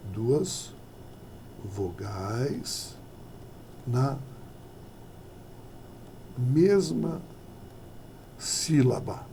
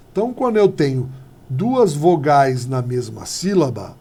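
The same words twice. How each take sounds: First: "duas vogais na mesma sílaba" with long pauses between each word, softer, ending in a whisper on "sílaba"; soft, spaced, emphatic "duas vogais na mesma sílaba"; slow word by word. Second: Said in the usual way. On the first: Shown as a demonstration. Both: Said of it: "O nome disso daqui".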